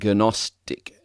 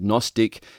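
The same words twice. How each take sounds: First: The first G sound is pronounced. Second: The first G sound is silent. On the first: "if we were to pronounce the G, we would be saying Gnostic" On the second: "has a silent G in front of it"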